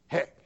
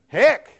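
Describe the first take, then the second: First: The word is said quietly. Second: The word is said loudly.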